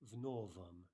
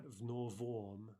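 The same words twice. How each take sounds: First: The ending's vowel is reduced to uh. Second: The ending's vowel is a full, clear o. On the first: The speaker calls it right. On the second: The speaker calls it wrong. "So not"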